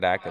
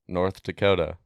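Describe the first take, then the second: First: North runs into Dakota with the th dropped. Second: The th sound in North is clearly pronounced. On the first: "That's what that this guy was doing" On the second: "How do you guys pronounce North Dakota?"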